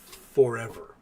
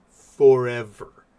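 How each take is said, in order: First: Said in the usual way. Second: Forever slow and loud, drawn out; stress on Forever. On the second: Real, not acted. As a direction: hit the word Forever hard and slow.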